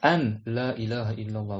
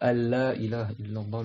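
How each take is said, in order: First: The n sound is kept before la. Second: The n sound merges into the following l.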